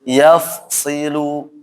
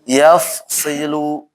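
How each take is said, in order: No difference in how they are said.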